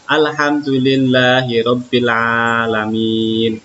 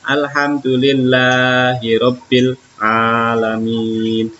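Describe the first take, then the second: First: Said in the usual way. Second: "Alhamdulillahirobbilalamin" recited slowly, long vowels clearly drawn out; careful vowel lengths. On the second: Shown as a demonstration. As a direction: recite "Alhamdulillahirobbilalamin" measuredly, holding long vowels and keeping short ones brief. ("Alhamdulillahirobbilalamin" dibaca pelan dengan panjang-pendek yang jelas) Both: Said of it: "awas harus diperhatikan panjang dan pendeknya".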